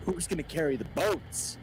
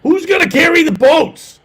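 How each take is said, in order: First: High, loud Goggins shout; Goggins impression. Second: Higher, louder yelled echo; Goggins impression. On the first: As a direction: yell it like a drill sergeant. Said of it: "let me ask you a very important question". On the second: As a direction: shout it back, hammed up. Echoing the Goggins shout.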